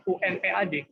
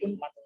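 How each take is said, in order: First: U N P A D spelled out as separate letters, U-N-P-A-D. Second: Unpad spoken whole as one word, un-pad. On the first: Teacher showing the wrong way, letter by letter. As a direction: say U N P A D one letter at a time, the wrong way. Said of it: "kita kan ngomongnya bukan U N P A D". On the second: Teacher showing the right way, as one word. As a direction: say unpad in one go, not spelled. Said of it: "tapi unpad". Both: Shown as a demonstration.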